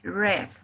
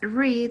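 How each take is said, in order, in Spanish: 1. La vocal es corta, rima con bed. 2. La vocal es larga, rima con seed. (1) "tendremos la pronunciación red, como el color rojo" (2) "lo que cambia es la pronunciación"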